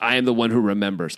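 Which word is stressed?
remembers. The stress is not on I.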